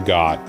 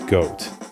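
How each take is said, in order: First: The vowel sounds like the one in 'got'. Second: The vowel sounds like the one in 'goat'. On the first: The speaker calls it wrong. "I don't know why people like to call it Got" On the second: The speaker calls it right. "I prefer to pronounce it Goat"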